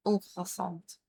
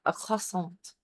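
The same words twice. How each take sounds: First: Croissant said French-style, T dropped and end muted; croissant with no T, ending soft. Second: Croissant said English-style with the T sounded at the end; croissant with a hard T on the end. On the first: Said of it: "take the T away and, like, mute the end". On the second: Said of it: "I keep adding the T to it". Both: Shown as a demonstration.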